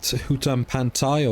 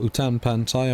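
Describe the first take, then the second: First: "Hutan Pantai" with a sounded H at the start; H pronounced. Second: "Utan Pantai" with a silent H, starting on the vowel; H dropped. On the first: Vlogger trying both names of the farm map, "Hutan Pantai" with the H sounded. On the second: Vlogger trying both names of the farm map, "Utan Pantai" with no H. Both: Shown as a demonstration. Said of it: "whether you should pronounce that H".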